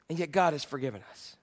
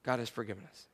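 First: Softer, lower statement of grace; quiet reverent statement; softly said. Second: Even softer, much lower echo; hushed reverent echo; near whisper. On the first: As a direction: let it land gently. Hushed repetition of key line. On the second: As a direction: breathe it out to the room. Echoed softer still. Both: Real, not acted.

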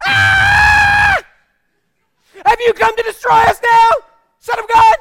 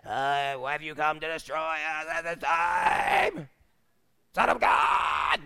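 First: Very high, full-force acted scream; screamed outburst. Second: Slow, drawn-out hammed-up demon voice; movie demoniac. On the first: Possessed man breaking into the middle of the sermon, screaming. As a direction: scream it out to startle the whole room. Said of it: "of speaking goes". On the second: Mocking the exorcist-film idea of possession, slow demon voice. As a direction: ham it up as a Hollywood possessed man. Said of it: "we gotta get movies out of our".

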